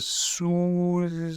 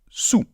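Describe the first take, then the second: First: The word ends with an L sound. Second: The word ends without an L sound. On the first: The speaker calls it wrong. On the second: The speaker calls it right. "on dit tout simplement sous ... on ne prononce pas de L final"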